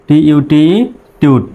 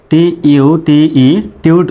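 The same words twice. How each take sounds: The two takes are said the same way.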